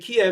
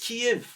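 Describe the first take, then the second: First: The city name is said the Russian way. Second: The city name is said a non-Russian way. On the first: The speaker calls it wrong. "that's the Russian pronunciation" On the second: The speaker calls it right. "It's Kiev"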